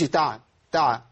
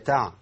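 First: The ain sound bounces with an added vowel. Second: The ain sound stays still with no vowel. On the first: The speaker calls it wrong. "ما قولش" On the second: The speaker calls it right. "العين ساكنه ما حركهاش"

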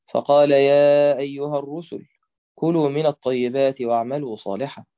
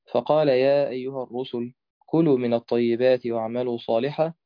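Both takes have the same delivery.

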